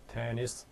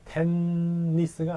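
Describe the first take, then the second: First: The middle n sound is said once. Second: The middle n sound is doubled. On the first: The speaker calls it right. "테니스겠죠" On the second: The speaker calls it wrong. "테니스가 아니고"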